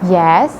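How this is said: The pitch moves up from low to high. "in a rising tone, a movement from a lower pitch to a higher one"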